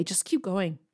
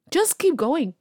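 First: Said in the usual way. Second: "keep going" said higher, pushing hard on "keep"; urging emphasis. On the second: Shown as a demonstration. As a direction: push the listener on with "keep".

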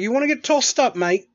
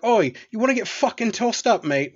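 First: High, louder British "tossed up, mate"; playful British geezer taunt; British accent. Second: Cheeky British "oi, mate" voice; London geezer threat, higher; British accent. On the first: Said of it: "talk to him in a British accent". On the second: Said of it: "use a British accent". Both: Retold or imitated.

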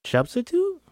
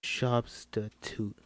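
First: SUBSTITUTE shot back high, rising at the end; surprised question. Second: SUBSTITUTE drawn out slowly, every syllable separate; emphasized syllables. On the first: Character echoing the word SUBSTITUTE back, high and surprised. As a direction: echo SUBSTITUTE as a startled question. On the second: Character answering expectantly, SUBSTITUTE slowly syllable by syllable. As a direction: say SUBSTITUTE syllable by syllable, softer and slow. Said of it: "he emphasized each syllable". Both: Acted.

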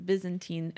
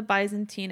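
First: Byzantine starting like "biz"; Y as short I. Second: Byzantine starting like "buy"; Y as long I. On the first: Host correcting the empire's name, Byzantine with a "biz" start. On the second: Host naming the empire, Byzantine with a "by" start. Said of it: "pronounce the Y as a Y". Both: Real, not acted.

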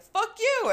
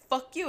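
First: Much higher and louder, a yelled retort; shouted comeback. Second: Higher, a touch of a spat-out insult; mock angry curse. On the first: Retold or imitated. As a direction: yell it right back at him. Her retort in retold fight. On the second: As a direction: imitate the passenger's snarl lightly. Drunk passenger curses in retold fight.

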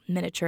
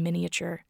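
First: "miniature" in three syllables, MIN-uh-cher; shortened pronunciation. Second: "miniature" in four syllables, MIN-ee-uh-cher; full pronunciation. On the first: Host owning up to switching between forms, shortened pronunciation. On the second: Host comparing the two ways they say it, full pronunciation. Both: Shown as a demonstration. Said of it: "I'm going back and forth".

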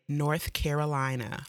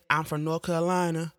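First: "North Carolina" said crisply with full th and every syllable of "Carolina"; clearly enunciated. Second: "North Carolina" slurred to "Nor-Calina", dropping the th and squashing "Carolina"; mock movie pronunciation. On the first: Shown as a demonstration. Showing viewers how she says her state, crisp "North Carolina". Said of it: "clearly pronounce and enunciate North Carolina". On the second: Mocking how the movie character says his home state, squashed "North Carolina". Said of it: "We do not say it like that".

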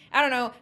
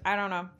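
First: Louder and higher, an exasperated outburst; exasperated louder repeat. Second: Said in the usual way. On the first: Real, not acted. Podcast host giving up on her point, in an exasperated louder voice. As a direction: throw up your hands on the repeat.

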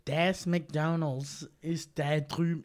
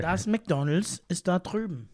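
First: German words in a slow, drawn-out American accent; regular American accent. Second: Lively, louder German accent. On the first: Asked to drop the German accent, slow American accent. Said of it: "do your regular accent, but speaking German". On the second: Friend showing off German on a podcast, German accent. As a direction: say it briskly with a full German accent. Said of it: "do it in the accent". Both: Shown as a demonstration.

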